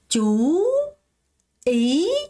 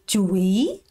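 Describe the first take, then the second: First: Both syllables carry the same rising tone. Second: The first syllable is lowered before the rise. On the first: The speaker calls it right. "chú ý 이렇게 발음해야 되는데" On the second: The speaker calls it wrong. "많은 분들이 주의, 주의 이렇게 발음한다는 거예요"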